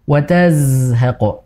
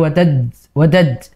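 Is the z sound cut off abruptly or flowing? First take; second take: flowing; abrupt. First: The z sound is held and flows continuously. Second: The z sound stops short, like a d. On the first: The speaker calls it right. "Harusnya dialirkan" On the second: The speaker calls it wrong. "jangan berhenti"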